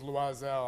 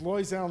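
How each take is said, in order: First: The name is said the French way. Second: The name is said the anglicized way. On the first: This is how the name was originally said. "but originally I believe it was Loisel" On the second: This is how the name is said today. "it's Loisel now"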